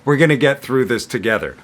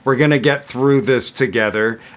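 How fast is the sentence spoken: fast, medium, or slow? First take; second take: fast; medium. First: The sentence is spoken at a very fast pace. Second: The sentence is spoken at a medium pace. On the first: "And then super fast" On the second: "I'm going to say it at medium speed"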